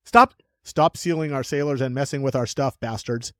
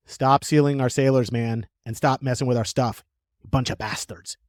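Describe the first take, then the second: First: Mock redo in an American accent. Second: Loosely attempted English accent. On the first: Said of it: "English accent for Americans?". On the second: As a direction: put on a wobbly English accent. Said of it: "did I just do an English accent?".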